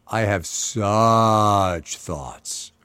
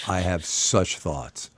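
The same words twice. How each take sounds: First: SUCH stretched out very long; drawn-out SUCH. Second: Low, slow and measured; slow, weighty. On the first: Host repeating the reaction to the poll, SUCH hugely drawn out. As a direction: hang on "such" for ages before "thoughts". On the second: Host reacting to the dress code poll, slow and weighty. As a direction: say it slowly, dropped low. Weighty opinion, repeated with growing emphasis. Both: Real, not acted.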